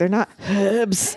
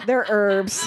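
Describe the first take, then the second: First: Herbs with a clear h; British herbs. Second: Herbs with a silent h; erbs, no h sound; American herbs. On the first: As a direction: pronounce the h in herbs. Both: Shown as a demonstration.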